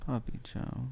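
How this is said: It is said in a sad tone.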